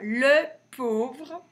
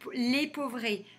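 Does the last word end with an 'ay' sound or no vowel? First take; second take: no vowel; ay sound. First: The last word ends without a final vowel sound. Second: The last word ends with an 'ay' vowel sound. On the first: The speaker calls it right. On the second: The speaker calls it wrong. "Ça fait pas"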